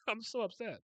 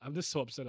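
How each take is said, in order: First: Laughing while saying it, higher; giggling through the complaint. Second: Said in the usual way. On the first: Real, not acted. Reacting to an anime scene, laughing at his own anger. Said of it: "I don't know why that made me angry".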